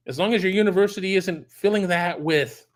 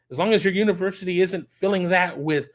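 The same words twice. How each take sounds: The two takes are said the same way.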